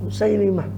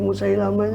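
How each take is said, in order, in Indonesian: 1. Vokal setelah 'Musail-' adalah 'i'. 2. Vokal setelah 'Musail-' adalah 'a'. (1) "Yang betul tuh Musailimah" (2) "Nggak tahu kok jadi Musailamah ini"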